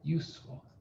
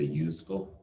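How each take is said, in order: First: The middle consonant is a hissing S sound. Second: The middle consonant is a buzzing Z sound. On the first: The speaker calls it right. "but useful. Because we have the F here" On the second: The speaker calls it wrong. "We don't say useful"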